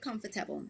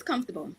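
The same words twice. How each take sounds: First: "comfortable" sounded out as com-for-ta-ble; four-syllable comfortable. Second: "comfortable" squeezed to comf-ta-ble; three-syllable comfortable. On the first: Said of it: "I have never said". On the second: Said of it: "It's "comfortable". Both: Shown as a demonstration.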